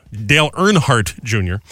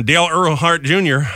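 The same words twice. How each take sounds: First: Slow, deliberate "Earnhardt" with the n sounded; careful correction. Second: "Earnhardt" said with its n dropped; slurred name. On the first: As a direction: correct yourself, spacing out "Earnhardt" with its n. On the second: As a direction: stumble through "Earnhardt" as "Er-hart". Stumbles on name, then repeats it. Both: Real, not acted.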